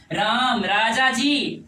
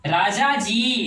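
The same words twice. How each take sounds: First: Slow राम राजा जी, every vowel stretched; long drawn call. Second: राजा जी held long like calling out; drawn-out call. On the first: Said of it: "तो ये मेरा लंबा समय हुआ ना". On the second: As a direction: call राजा जी with a stretched vowel. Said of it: "क्या इस तरह का स्वर लेते हैं ना". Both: Shown as a demonstration.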